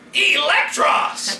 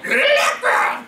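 First: It is crisply over-enunciated. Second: It is softly under-enunciated.

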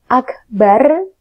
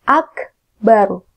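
First: The r sound is light and thin. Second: The r sound is heavy and thick. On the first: The speaker calls it wrong. "Bukan akbar" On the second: The speaker calls it right. "dibaca tebal atau dibaca tafkhim"

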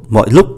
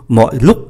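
Both takes have the same delivery.

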